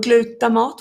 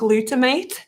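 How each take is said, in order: First: The word is pronounced the Swedish way. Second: The word is pronounced the English way.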